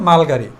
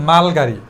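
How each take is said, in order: The two takes are said the same way.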